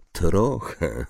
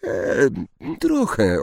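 First: Melancholy echo. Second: Higher, hesitant, timid answer; hesitate, then answer trochę nervously; small unsure girl's voice; slightly trembling. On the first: Centaur echoes her answer. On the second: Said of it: "lekko drżącym głosem". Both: A narrator's reading.

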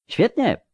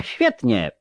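First: High, ecstatic exclamation; exalted cry. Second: Said in the usual way. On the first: A narrator's reading. Count to fellow plotters, cries out in exaltation. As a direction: burst out in rapture. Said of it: "krzyknął egzaltowanie hrabia Broinny". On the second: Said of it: "krzyknął egzaltowanie".

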